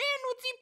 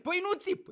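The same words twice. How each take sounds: First: Very high parroting of "nu țip"; mocking echo. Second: High, curt mock protest on "nu țip"; defensive denial. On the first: Partner parroting the denial, mocking and high-pitched. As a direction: throw "nu țip" back in a squeakier pitch. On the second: Partner denying shouting, mock defensive. Denies yelling in acted quarrel.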